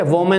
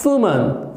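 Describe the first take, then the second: First: "वुमन" as VO-man, rising; "वुमन" the common wrong way, vo-men; former mispronunciation. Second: "वुमन" as WOO-mun, rounded w; falling, careful "वुमन", WOO-mun; correct pronunciation. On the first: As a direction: say "वुमन" with a v and full o. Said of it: "क्या कहते थे". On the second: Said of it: "लेकिन होता क्या है". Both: Shown as a demonstration.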